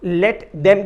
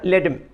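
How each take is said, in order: First: The word them is said in full. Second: The word them is shortened to em. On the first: "let देम की जगह" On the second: "देम के लिए एम, ई एम, इस तरह से short में use करते हैं"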